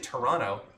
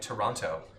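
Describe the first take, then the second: First: The second T sound is dropped. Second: The second T sound is clearly pronounced. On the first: "I always say Toronto" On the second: "I think Canadians pronounce it like Toronto"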